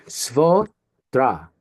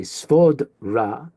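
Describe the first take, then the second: First: "svodra" slowly broken as svo-dra; split before d. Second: "svodra" broken as svod-ra; split after d. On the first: Teacher shows the right split, "svodra" slowly as svo-dra. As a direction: hold "svo", pause, then "dra" in "svodra". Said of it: "but we're not gonna say svodra". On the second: Teacher shows the tempting wrong split, "svodra" as svod-ra. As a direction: close the first syllable of "svodra" on d, then ra. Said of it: "we might be tempted to say". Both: Shown as a demonstration.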